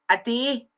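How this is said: It is said in a broad Scottish accent. "there I did it again"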